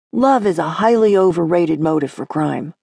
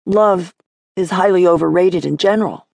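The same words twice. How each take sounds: First: Said in the usual way. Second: Love set apart, then a beat before the rest; Love stressed with a pause after it. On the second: Acted. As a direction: lean on Love and let it hang. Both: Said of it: "Cole paused".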